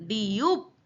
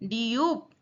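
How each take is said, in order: Both takes have the same delivery.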